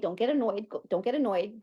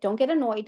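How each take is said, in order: First: Softer, repeating it to herself; quiet self-talk. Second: Said in the usual way. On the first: Pretend. Repeating calming words to herself.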